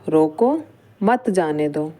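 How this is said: There is a pause right after roko. Stop the person; do not let them go. "रोको के बाद क्या करा, अल्प विराम लगा दिया"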